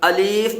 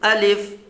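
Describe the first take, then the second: First: The second vowel is drawn out long. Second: The second vowel is short and soft. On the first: The speaker calls it wrong. "अलीफ भी नहीं पढ़ेंगे" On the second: The speaker calls it right. "बल्कि क्या पढ़ेंगे, अलिफ, बिल्कुल नरमी से"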